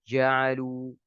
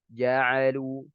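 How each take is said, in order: No difference in how they are said.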